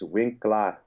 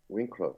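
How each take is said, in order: First: The second syllable has a long, open 'laar' vowel. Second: The second syllable has a short, weak 'ler' vowel. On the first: This is how the name is really said. The speaker calls it right. "It's Winklar" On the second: This is how outsiders usually say the name. The speaker calls it wrong. "you guys say wink, Winkler"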